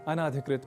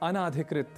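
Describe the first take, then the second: Both takes have the same delivery.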